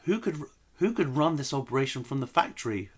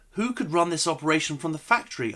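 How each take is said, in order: First: More gentle. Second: Gentle. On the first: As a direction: ask it tenderly, carefully. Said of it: "Let's try it more gentle than that". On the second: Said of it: "don't know if my acting was good enough". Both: Acted.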